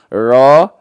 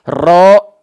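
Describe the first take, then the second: First: The r is not trilled at all. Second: The r is trilled long and heavily. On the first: "malah tidak menggetarkannya jadi kayak orang bule" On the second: "yang nggak boleh itu getaran terlampau banyak-banyak"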